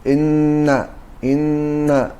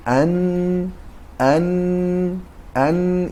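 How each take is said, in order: First: «ان» with a held n through closed teeth; teeth stuck together. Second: «ان» with a held, higher n, teeth apart; correct noon articulation. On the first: Retold or imitated. Teacher imitates students' mistake, «ان» held with teeth pressed together. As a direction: hold the n of «ان» with the teeth clenched. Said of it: "این دندانا رو میچسبانند". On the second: Shown as a demonstration. Teacher models noon for students, «ان» sustained with teeth apart. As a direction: hold the n of «ان», tongue tip up, lips open. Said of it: "دندانها از یکدیگر دور می باشند".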